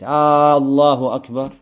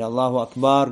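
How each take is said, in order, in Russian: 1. Первый гласный в Allahu растянут. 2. Последний гласный в Akbar растянут. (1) "Это уже вопрос. А велик ли Аллах?" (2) "это множественное число слова Акбар, то есть барабаны"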